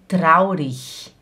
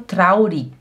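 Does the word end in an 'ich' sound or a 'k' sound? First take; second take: ich sound; k sound. First: The word ends in a soft 'ich' sound. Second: The word ends in a hard 'k' sound. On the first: This is how most Germans say it. "a maioria dos alemães, eles falam traurig ... ele faz um som de ich" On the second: This is how most Swiss people say it. "Aqui na Suíça, a maioria dos suíços falam traurig"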